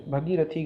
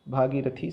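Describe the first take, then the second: First: भगीरथी opening with short "bha"; wrong short first vowel. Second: भागीरथी opening with long "bhaa"; long first vowel. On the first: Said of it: "गलत है". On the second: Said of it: "सही है". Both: Shown as a demonstration.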